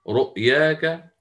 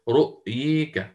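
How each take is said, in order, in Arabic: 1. الصوت الطويل مفتوح 'a' خالص. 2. الصوت الطويل مُمال بقوة نحو 'e'. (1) "أبو الحارث يقرأ رؤياك" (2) "والإمام الدوري عن الكسائي رؤييك"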